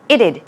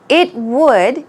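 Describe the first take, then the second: First: It is said as one contracted word. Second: It is said as two full words. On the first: "shortened to it'd" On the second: "It would is shortened to it'd"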